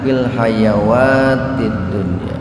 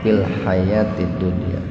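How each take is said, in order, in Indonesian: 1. Kata tengah dibaca dengan vokal panjang. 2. Kata tengah dibaca dengan vokal pendek. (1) "kalau di depan wawu dibacanya panjang" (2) "Kalau di atas wawu dibacanya pendek"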